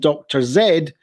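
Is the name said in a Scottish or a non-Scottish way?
Scottish. The name is said the Scottish way. "with a Scottish accent, it would normally be called"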